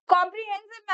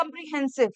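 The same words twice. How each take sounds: First: Teacher's clear "कॉम्प्रिहेंसिव", opening on a full "kom"; model pronunciation. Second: "कॉम्प्रिहेंसिव" opening on a reduced "kum"; student's mispronunciation. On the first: Shown as a demonstration. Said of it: "ma'am ने बोला". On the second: Retold or imitated. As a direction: imitate a student saying "कॉम्प्रिहेंसिव" with a weak first vowel. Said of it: "आप क्या बोल रहे हो".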